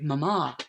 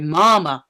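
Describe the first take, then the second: First: It is said in a British accent. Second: It is said in an American accent. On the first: "how British people say" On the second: "but Americans say"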